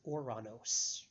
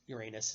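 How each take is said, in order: First: It is said the old Greek way. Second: It is said the common English way. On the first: The speaker calls it right. "The proper name of the planet" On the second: The speaker calls it wrong. "the pronunciation you hear more often these days. That is not accurate"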